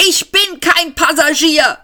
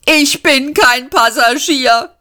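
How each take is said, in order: First: Shouted. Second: Indignant snort, higher and slow. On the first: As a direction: shout it back at the machine. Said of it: "schrie Seyfort nochmal". (Seyfort schreit den Autopiloten an, höher) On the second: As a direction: huff the words out in protest. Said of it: "schnaubte Seyfort". (Seyfort schnaubt empört, langsam und höher) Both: A narrator's reading.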